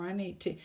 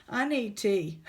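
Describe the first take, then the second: First: Said in the usual way. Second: Louder, pleading; louder plea. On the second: Real, not acted. Overwhelmed vlogger calls out loudly for tea. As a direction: call out for tea in exasperation. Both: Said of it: "I just can't do anymore".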